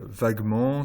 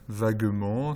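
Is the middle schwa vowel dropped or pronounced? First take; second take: dropped; pronounced. First: The middle schwa vowel is dropped. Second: The middle schwa vowel is pronounced. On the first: "vous pouvez faire disparaître le schwa, comme je viens de le faire" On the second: "ou vous pouvez le faire apparaître"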